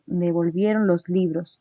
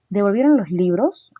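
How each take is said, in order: First: The voice falls at the end. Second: The voice rises at the end. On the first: It states a fact. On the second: It asks a question.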